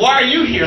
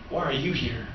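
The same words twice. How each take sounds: First: Louder, pointed demand with stress on you; incredulous question. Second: Soft and low, letting the question sink in; hushed, solemn question. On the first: Retold or imitated. Pastor pushing back at his crying friend, pointed and louder. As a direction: push back at the crying friend, a little loud. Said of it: "I'm like". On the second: Acted. Preacher voicing the Holy Spirit's question to the congregation, hushed. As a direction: drop the voice almost to a murmur. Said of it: "I felt the Holy Spirit say".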